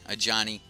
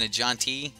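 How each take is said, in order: First: The name is said as a smooth Johnny. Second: The name is said with a separate T sound. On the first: The speaker calls it right. "Okay, a Johnny. My bad" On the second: The speaker calls it wrong. "was I saying a John T?"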